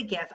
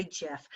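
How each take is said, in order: First: "gif" with a hard G. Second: "gif" with a soft J sound. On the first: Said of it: "I say gif. I don't say gif". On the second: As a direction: say "gif" like "jiff". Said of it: "I don't say gif". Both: Shown as a demonstration.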